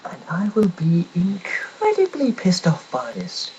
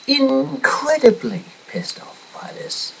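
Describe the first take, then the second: First: Slow, high, stretched "incredibly"; retold threat. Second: Much higher, slow "Incredibly", punched; escalating repeat. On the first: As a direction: lean hard on "incredibly". Retold threat to job centre. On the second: Retold or imitated. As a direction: push "Incredibly" way up, slowly.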